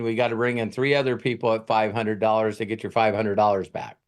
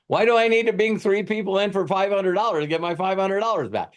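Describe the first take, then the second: First: Said in the usual way. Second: Much higher, disbelieving question; can't believe this math; incredulous. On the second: Real, not acted. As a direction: make the deal sound absurd. Mocking the scheme's logic.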